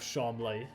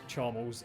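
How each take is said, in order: First: The name ends in an 'lee' sound. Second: The name ends in a short 'les' sound. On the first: The poshest form, used by the man himself. "He calls himself Charmley, the poshest one" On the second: The neutral form of the name. "Neutral one is Charmles"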